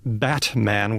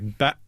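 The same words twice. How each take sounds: First: The middle consonant is a clearly released t. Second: The middle consonant is a glottal stop. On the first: "saying the character Batman with a T" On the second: "I always say Batman. ... there's a pause there. So that's a glottal stop"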